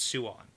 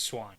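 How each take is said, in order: First: The name is said slowly, as two syllables. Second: The name is said quickly, as one syllable. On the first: "if you slow it down, it's Suan" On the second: "but I say it fast, so it's Swan"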